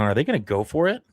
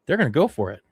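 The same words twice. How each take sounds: First: "go for it" swinging up into a question; incredulous question. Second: "go" pitched high, then falling on "for it"; disbelieving statement. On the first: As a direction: ask "go for it" with a sharp rise at the end. Asks, then answers own question. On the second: Answers own question in disbelief. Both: Real, not acted.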